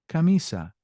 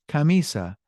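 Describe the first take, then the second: No difference in how they are said.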